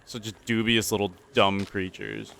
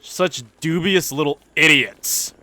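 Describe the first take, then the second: First: Said in the usual way. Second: Higher, louder, slow scornful voice; mock snooty sneer. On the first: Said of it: "repeats with new voice". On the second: Gamer mocking the new neighbor, slow snooty sneer. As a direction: sneer at the dubious little idiots. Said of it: "put-on second take".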